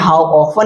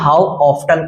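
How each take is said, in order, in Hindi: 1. 'often' में t silent है। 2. 'often' में t बोला जाता है।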